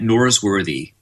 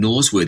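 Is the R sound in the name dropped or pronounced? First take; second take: pronounced; dropped. First: The R sound is pronounced, American style. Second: The R sounds are dropped, Australian style. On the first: "I have to put the R in there" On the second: "they don't understand Norsworthy because there's too many R's in there"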